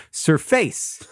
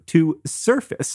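First: "surface" said sur-FACE; mispronounced verb. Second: Said in the usual way. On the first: Retold or imitated. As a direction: stress the end of "surface", rhyming with "face". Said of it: "I pronounced it like surface". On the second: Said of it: "I pronounced it like".

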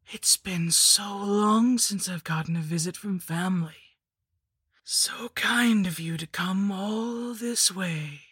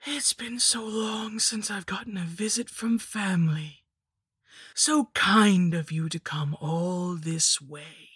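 First: Slow, higher whispered crone voice; wheezing hag whisper. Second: Witch voice. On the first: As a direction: breathe it out like a dying witch. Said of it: "it wheezed in a voice like sand falling". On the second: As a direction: savour each word like a hag. The hag repeats her greeting. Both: Acted.

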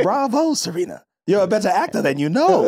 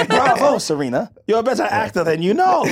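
First: Lightly mocking Diana's grand praise; a hint of theatrical villain; light mock of a scheming socialite; quoting Diana. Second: Lightly mocking grand praise; a hint of theatrical villain; light mock of a scheming socialite; quoting Diana again. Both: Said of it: "Diana goes".

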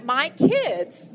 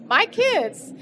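First: Said in the usual way. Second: Teary, voice jumps up; voice breaking higher. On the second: Real, not acted. Emotional repeat, voice jumps up.

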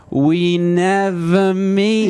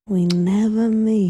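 First: "We never meet" very slow and high, each word stretched; exaggerated fixed intonation. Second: Slow, understated Mid-Atlantic accent; lightly drawn-out Mid-Atlantic delivery. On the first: Co-host imitating the comedian's punchline, exaggerated high drawn-out intonation. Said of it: "intonation is not random". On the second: Shown as a demonstration. Comedian showing her own punchline's accent, slow Mid-Atlantic. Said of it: "kind of like Mid-Atlantic".

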